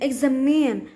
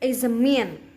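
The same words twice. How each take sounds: First: The first vowel is said as an E sound. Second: The first vowel is said as an A sound. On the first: The speaker calls it right. "the word should be pronounced exam, examine" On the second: The speaker calls it wrong. "the learners replace sound E with sound A, which results in examine"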